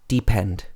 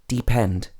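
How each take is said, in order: No difference in how they are said.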